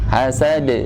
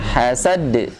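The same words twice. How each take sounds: First: The final d bounces lightly, without an extra stop. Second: The final d is pressed, doubled and cut off. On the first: The speaker calls it right. "harusnya de" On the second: The speaker calls it wrong. "bukan hasad"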